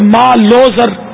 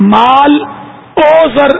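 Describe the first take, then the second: First: The 'o' is joined onto the first word. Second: The 'o' is said as a separate word. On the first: The speaker calls it right. "خالی واؤ مل جائے گا" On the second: The speaker calls it wrong. "نہیں بولیں گے"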